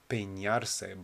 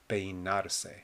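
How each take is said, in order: First: The middle consonant is a palatal ny sound. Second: The middle consonant is a plain n sound. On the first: The speaker calls it wrong. "don't pronounce this N over here like an ñ. It's not peinarse" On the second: The speaker calls it right. "but peinarse"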